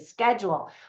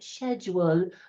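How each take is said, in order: First: It is said with an American pronunciation. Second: It is said with a British pronunciation. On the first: "Americans where we say schedule" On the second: "all Brits pronounce the word schedule like that"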